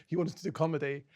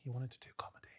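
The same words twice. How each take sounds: First: Said in the usual way. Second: Quietly, as if to yourself; soft inner voice. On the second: Retold or imitated. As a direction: say it under your breath, a private nudge. Self-talk repeated, first softer.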